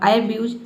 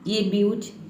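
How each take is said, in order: First: The word begins with an 'eye' vowel. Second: The word begins with an 'ay' vowel. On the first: "आई ब्यूज भी नहीं हो सकता है" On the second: "ये ए ब्यूज नहीं हो सकता है"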